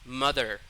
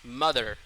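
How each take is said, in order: Both takes have the same delivery.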